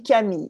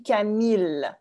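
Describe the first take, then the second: First: "Camille" the French way, ending in a Y sound, no L. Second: "Camille" the English way, with a clear final L. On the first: Shown as a demonstration. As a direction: say "Camille" as ka-MEE-y. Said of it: "on dit Camille". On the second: Retold or imitated. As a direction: imitate an Irish host saying "Camille" with the L sounded. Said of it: "il dit Camille".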